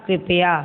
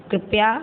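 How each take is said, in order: First: Said in the usual way. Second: कृपया as the wrong form, said with a questioning rise; mispronounced कृपया. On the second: Shown as a demonstration. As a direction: say कृपया as a misspelt example, end lifted. (कृपया का अशुद्ध रूप, चढ़ते सुर में) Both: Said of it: "अशुद्ध और शुद्ध".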